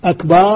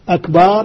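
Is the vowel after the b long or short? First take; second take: long; long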